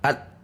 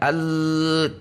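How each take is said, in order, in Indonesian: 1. Bunyinya disentak dan berhenti tiba-tiba. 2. Tekanannya ditahan datar sepanjang bunyi. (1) "juga tidak dihentak, al, langsung berhenti" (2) "tidak al, perhatikan tekanan suara Anda tidak konstan"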